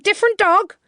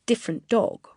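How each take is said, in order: First: "Different dog?" high and loud, alarmed; alarmed echo. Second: Said in the usual way. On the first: A narrator's reading. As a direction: snap back "Different dog?" in shock. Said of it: "he cried". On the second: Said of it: "The words "different dog".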